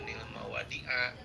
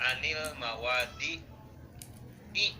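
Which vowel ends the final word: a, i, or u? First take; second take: a; i. First: The final word ends in an a vowel. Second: The final word ends in an i vowel. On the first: The speaker calls it wrong. "jangan dibaca" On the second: The speaker calls it right. "akhirnya harus dikasrohkan"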